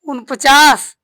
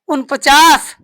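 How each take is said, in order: No difference in how they are said.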